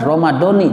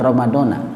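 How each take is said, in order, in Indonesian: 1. Kata ini berakhir dengan vokal 'ee'. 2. Kata ini berakhir dengan vokal 'ah'. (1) "maka pengucapannya harus benar Ramadhani" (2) "jangan Ramadana"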